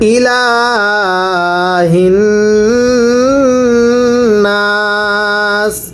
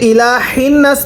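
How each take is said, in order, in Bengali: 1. h গলার গভীর থেকে উচ্চারিত হয়। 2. h হালকাভাবে বলা হয়, গলার আওয়াজ ছাড়া। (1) "গোলহাটা উচ্চারণের সময় গোলার মধ্যে আওয়াজ করে পড়তে হবে" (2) "এটাকে যদি ইলাহিন নাস পড়ি তাহলে পড়া শুদ্ধ হবে না"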